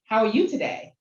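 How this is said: It sounds like a sincere, genuine question. The speaker really wants to know. "it can sound like a, a question"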